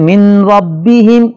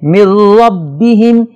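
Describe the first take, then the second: First: The n is pronounced clearly before the r. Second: The n merges fully into the following r. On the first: The speaker calls it wrong. "नून की आवाज को जाहिर करके पढ़ना गलती है" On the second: The speaker calls it right. "नून की आवाज बिल्कुल जाहिर नहीं होगी"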